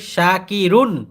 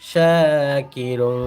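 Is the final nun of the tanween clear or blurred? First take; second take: clear; blurred. First: The final nun sound is clearly articulated. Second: The final nun sound is blurred, not clearly articulated. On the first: The speaker calls it right. "তানবিনটা স্পষ্ট হবে।" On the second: The speaker calls it wrong. "এটা ভুল।"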